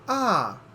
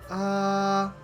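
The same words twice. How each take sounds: First: The pitch starts very high and falls. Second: The pitch stays high and level throughout. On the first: "very high and then falls down like this" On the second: "the first tone is a flat high tone"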